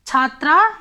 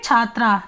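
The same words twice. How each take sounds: First: छात्रा said louder with a rising end, as the first of the set; rising recital tone. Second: छात्रा said with a lower, falling end to close the list; falling final tone. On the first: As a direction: lift छात्रा up and leave it open. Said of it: "छात्रा के एक वचन में क्या बनेगा". (छात्रा ऊँचे उठते सुर में) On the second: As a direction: drop छात्रा down to finish. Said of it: "द्विवचन में छात्रे". (छात्रा नीचे गिरते सुर में) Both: Shown as a demonstration.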